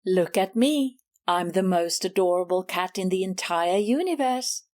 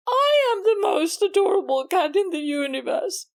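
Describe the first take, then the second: First: Lower, self-satisfied bragging cat; lightly voiced Miss Maggie, purring her own praises; smug rival cat. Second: Indignant claim. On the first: Susie mimicking Miss Maggie's boast, lower and smug. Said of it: "let me tell you". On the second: Acted. Susie angrily claiming the title back from Miss Maggie. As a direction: snap the boast back as your own.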